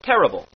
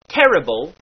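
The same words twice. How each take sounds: First: The everyday terrible; usual terrible. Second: Terrible said with a tapped r; dialect terrible. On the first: Teacher contrasts the usual pronunciation. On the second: Teacher models the stage dialect sound. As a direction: tap the r in terrible. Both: Shown as a demonstration. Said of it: "instead of terrible".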